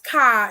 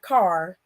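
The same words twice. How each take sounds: First: The word is said with a Chicago accent. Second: The word is said with a general accent. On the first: "Chicago says car" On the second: "instead of car"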